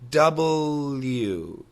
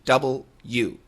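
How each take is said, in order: First: It is said fast with the L sound linking. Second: Both parts are said slowly and fully separated. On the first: "when we do say it fast, that L sound comes over" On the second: "the literal proper pronunciation"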